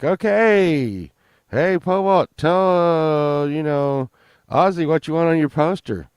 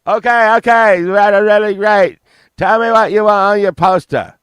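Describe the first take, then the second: First: Loud, higher hype-man call; excited bartender. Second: Much higher, much louder frantic rock-star yell. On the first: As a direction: announce it to the bar like a big win. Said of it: "and they're like". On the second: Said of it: "[name] was like". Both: Retold or imitated.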